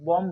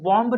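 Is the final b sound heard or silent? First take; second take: silent; heard. First: The final b is silent. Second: The final b is pronounced. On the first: The speaker calls it right. "बॉम्ब में ये बी silent है" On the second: The speaker calls it wrong. "बॉम्ब नहीं बोलेंगे"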